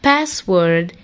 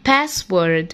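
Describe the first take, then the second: No difference in how they are said.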